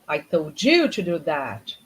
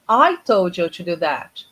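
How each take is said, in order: First: The word you carries a strong emphasis. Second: It has a neutral intonation with no special emphasis. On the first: The listener, not someone else, was told. "It means I told you. You were supposed to do that, not him, not her" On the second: It is a plain statement. "Like the normal intonation"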